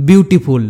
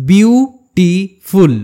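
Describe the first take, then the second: First: Said in the usual way. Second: "beautiful" very slowly in three pieces, বিউ, টি, ফুল; slow sounding-out of "beautiful" with pauses; split into syllables. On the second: Shown as a demonstration. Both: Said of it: "তিনটি সিলেবেলে ভাঙতে হয়".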